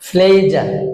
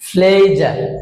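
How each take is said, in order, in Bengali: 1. প্রথম ব্যঞ্জনধ্বনিটি জোরালোভাবে অ্যাসপিরেটেড। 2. প্রথম ব্যঞ্জনধ্বনিটি জোরালোভাবে অ্যাসপিরেটেড।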